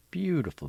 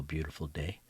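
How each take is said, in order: First: First beautiful swooped way up and louder; gushing. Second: Said in the usual way. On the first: Acted. Narrator setting the Sunday scene, gushing high. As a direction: rave about the morning.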